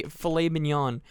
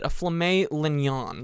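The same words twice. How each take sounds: First: Said in the usual way. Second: "filet mignon" garbled as "fla-may lin-yon"; flipped pronunciation. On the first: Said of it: "the way you, you say". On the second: Retold or imitated. Cook recalling his flub, "filet mignon" flipped to "fla-may lin-yon". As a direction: say "filet mignon" with L and M swapped, slowly. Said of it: "I literally flipped the way you say".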